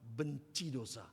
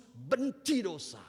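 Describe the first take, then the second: First: Said in the usual way. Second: "Benci dosa" louder, very slow, each word hammered; emphatic slow answer. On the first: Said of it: "Apa sih artinya hidup kudus". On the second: Shown as a demonstration. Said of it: "Apa artinya hidup kudus?". ("Benci dosa" diucapkan lambat dan keras)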